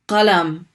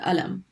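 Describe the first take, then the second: First: The word begins with a deep q sound. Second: The word begins with a glottal stop. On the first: "Qalam is pen" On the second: "in many dialects, people pronounce it alam"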